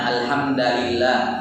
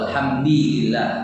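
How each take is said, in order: First: The vowel after alhamd is an a. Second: The vowel after alhamd is an i. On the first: The word is in the accusative case. "dia mansub" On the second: The word is in the genitive case. "atau dia majrur"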